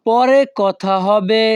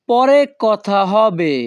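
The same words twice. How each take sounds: First: Slow repeat. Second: Slow model phrase. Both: Shown as a demonstration. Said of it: "পরবর্তী বাক্যটি আছে".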